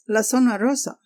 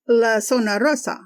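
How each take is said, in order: First: "La Zona Rosa?" as a disbelieving question rising at the end; incredulous repeat. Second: Said in the usual way. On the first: Retold or imitated. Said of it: "And he says". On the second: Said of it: "And she tells him".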